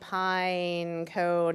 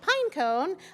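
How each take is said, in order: First: It is said in a dark, ominous voice. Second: It is said in a plain, neutral voice. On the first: "in an ominous kind of voice" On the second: "I'm not saying pine cone"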